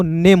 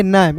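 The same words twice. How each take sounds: First: नेम with a long "ay" vowel; reading with e. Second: नैम with an open "ae" vowel; reading without e. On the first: Teacher contrasting name with nam, नेम with long ay. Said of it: "N A M E को नेम". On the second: Teacher contrasting nam with name, नैम with open vowel. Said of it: "M लिखेंगे तो इसे पढ़ेंगे". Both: Shown as a demonstration.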